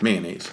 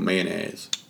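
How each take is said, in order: First: The word has its usual standard pronunciation. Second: The word sounds like 'man-azz', drawn out. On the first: This is the common pronunciation. "As we know it" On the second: This is a regional Louisiana pronunciation. "If I were to have to spell it, I would say MAN-AZZ"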